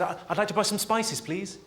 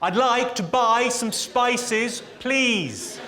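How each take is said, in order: First: It is said at a normal, quieter volume. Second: It is said louder than before.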